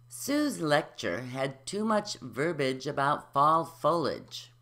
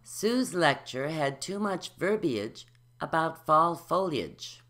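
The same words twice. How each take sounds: First: Some syllables are left out. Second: Every syllable is pronounced. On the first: "omitting the syllables" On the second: "adding the syllables"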